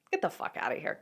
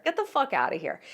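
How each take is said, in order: First: Unvoiced whisper of disbelief; whispered get the fuck outta here; whispered dismissal. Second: Said in the usual way. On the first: Real, not acted. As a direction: breathe it out in scorn.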